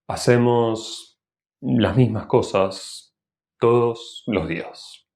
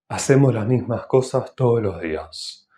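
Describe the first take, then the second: First: Small pauses separate words and every S is full. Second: Words are linked and S before consonants is breathy. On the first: "si hay una pequeña pausa entre las palabras, la S se pronuncia normalmente" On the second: "aspirando la S"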